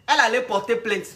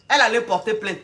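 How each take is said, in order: Both takes have the same delivery.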